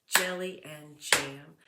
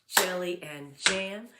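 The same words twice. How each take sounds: The two takes are said the same way.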